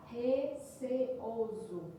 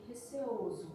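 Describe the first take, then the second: First: RECEOSO stretched very slowly, each syllable set apart. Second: Said in the usual way. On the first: Shown as a demonstration. Teacher showing the syllable division to students, RECEOSO slow, syllable by syllable. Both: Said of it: "Percebam a divisão silábica de receoso".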